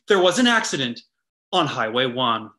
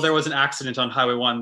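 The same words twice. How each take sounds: First: It is said in an exaggerated, formal newscaster voice. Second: It is said in a plain, casual conversational voice. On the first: The speaker calls it wrong. "they'll be like" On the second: The speaker calls it right. "instead of saying like, oh"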